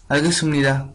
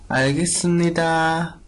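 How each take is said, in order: First: Said in the usual way. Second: Seoul pronunciation. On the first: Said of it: "otra persona es un poco dice". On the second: Shown as a demonstration. Teacher showing how Seoul speakers answer, in a Seoul accent. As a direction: say 알겠습니다 the Seoul way. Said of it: "un poco de más de la pronunciación de Seúl".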